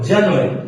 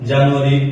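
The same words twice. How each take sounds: First: The word is said drawn out and long. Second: The word is said short, Bengali-style. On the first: The speaker calls it right. "বড় করে জানুয়ারি" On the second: The speaker calls it wrong. "এভাবে না কিন্তু"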